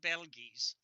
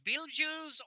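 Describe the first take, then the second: First: The first vowel is short, not a long 'ee'. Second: The first vowel is a long 'ee' sound. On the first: This is an older way of saying it. "I did kind of drop the long E" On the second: This is how most people say it now. "the way everybody does nowadays"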